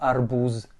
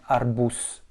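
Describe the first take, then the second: First: The final consonant is a voiced Z sound. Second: The final consonant is a voiceless S sound. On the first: The speaker calls it wrong. "et non arbouze" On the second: The speaker calls it right. "on dit bien arbous"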